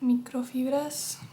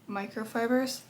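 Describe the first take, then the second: First: The word is said with a Spanish pronunciation. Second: The word is said with an English pronunciation. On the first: The speaker calls it wrong. "I don't want to be annoying and being like microfibras" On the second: The speaker calls it right. "I'm trying to say it in the English pronunciation"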